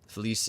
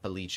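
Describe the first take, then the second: First: The name is pronounced the Spanish way. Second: The name is pronounced the Italian way. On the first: "Felice is uh, Spanish" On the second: "Felice is Italian"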